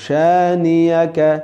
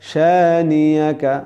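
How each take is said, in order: No difference in how they are said.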